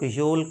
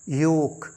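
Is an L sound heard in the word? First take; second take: yes; no. First: The word is said with an L sound. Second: The word is said with no L sound. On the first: The speaker calls it wrong. "योल्क नहीं, एल का sound नहीं है" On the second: The speaker calls it right. "ये है योक"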